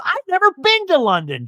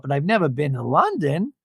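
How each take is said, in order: First: High-pitched thrilled squeal; over the moon. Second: Said in the usual way. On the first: Retold or imitated. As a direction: imitate her giddy with excitement. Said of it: "Jen is, like, over the moon".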